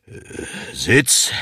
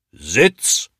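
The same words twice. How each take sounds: First: Stricter command. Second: Sharp command, swooping up; shrill policeman's snap. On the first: Policeman shows how to command a dog, sterner. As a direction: draw breath and order the dog to sit. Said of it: "ein bisschen strenger klingen". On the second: Policeman tries the dog command once more, snapping shrilly. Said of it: "schnauzt er mit seiner schrillen Polizistenstimme". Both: A narrator's reading.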